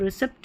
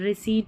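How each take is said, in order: First: The p sound is pronounced before the t. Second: The p sound is silent before the t. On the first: The speaker calls it wrong. "इसको रिसिप्ट नहीं बोलते" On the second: The speaker calls it right. "रिसीट बोलते हैं"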